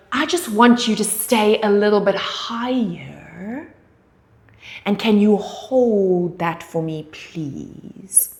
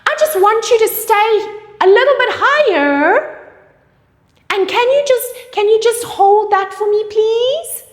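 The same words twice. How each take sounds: First: Calm authoritative cue with falling tone; falling authority. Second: Much higher, louder, sing-song asking; high pleading request, wrong way; rising pleading. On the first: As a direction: tell them firmly, tune falling. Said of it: "falling intonation brings authority". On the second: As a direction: beg the client politely with rising tune. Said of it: "You can't say". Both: Shown as a demonstration.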